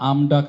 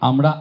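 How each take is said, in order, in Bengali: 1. মাঝের ব্যঞ্জনটি ড-ধ্বনি। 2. মাঝের ব্যঞ্জনটি র-ধ্বনি।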